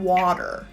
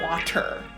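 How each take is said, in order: First: The middle T sounds like a soft D. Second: The middle T is a clear T sound. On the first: The speaker calls it right. "We'll either change it to D" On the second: The speaker calls it wrong. "I'm not drinking water"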